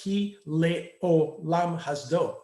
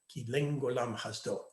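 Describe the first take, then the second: First: The word 'olam' starts with a plain vowel. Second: The word 'olam' starts with an ng sound. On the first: This is the modern Hebrew pronunciation. "in modern Hebrew, it would be pronounced ki le'olam hasdo"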